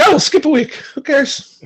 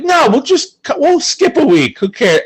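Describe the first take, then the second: First: High, flippant mock Rooney; breezy high who-cares; careless high voice. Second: High, breezy who-cares tone; careless high voice. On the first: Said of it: "this guy is so quickly to be like". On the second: Retold or imitated. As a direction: toss it off lightly. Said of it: "I had a very lax attitude of like".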